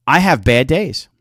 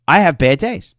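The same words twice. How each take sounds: The two takes are said the same way.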